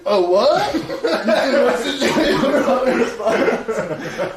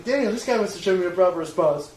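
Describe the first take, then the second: First: Loud, high mock roar through laughter; hammed-up caveman outrage, breaking into laughs; riled-up caveman. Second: Raised, higher-pitched call for backup; recounting a shout to a friend; retold call. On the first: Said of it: "full caveman".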